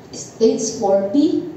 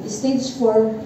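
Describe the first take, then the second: First: "stage four B" said slowly, with the B drawn out and rising; slow and deliberate, landing on "B"; stress on B. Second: Said in the usual way. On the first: Retold or imitated. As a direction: lean hard on the letter "B" and lift it. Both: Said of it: "B na ha".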